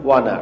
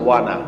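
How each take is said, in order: The two takes are said the same way.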